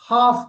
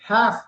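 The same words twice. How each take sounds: First: It is said in a British accent. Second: It is said in an American accent. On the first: "halfங்கிறது British" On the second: "halfங்கிறது American"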